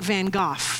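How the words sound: The name is said the British way. "If you're in England, he's pronounced, I think"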